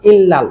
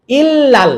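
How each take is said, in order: First: Said in the usual way. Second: ইল্লাল with a light, thin L; light illal. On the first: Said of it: "এটা কিন্তু normal লাম". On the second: Shown as a demonstration. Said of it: "ইল্লাল পাতলা".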